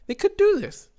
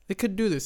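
First: "do" jumps way up, thrilled; excited disbelief. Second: Said in the usual way. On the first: Retold or imitated. Retelling the late drive to viewers, suddenly thrilled and high. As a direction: voice leaps high on "they could do this".

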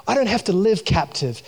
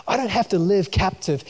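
Both takes have the same delivery.

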